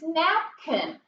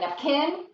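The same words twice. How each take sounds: First: The stress is on the first syllable. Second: The stress is on the second syllable. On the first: The speaker calls it right. "accent mark goes on the first syllable" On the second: The speaker calls it wrong. "Do people say napkin?"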